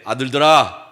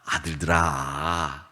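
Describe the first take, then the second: First: It is said plainly, without warmth. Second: It is said warmly, with loving intonation.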